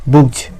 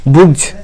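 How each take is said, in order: No difference in how they are said.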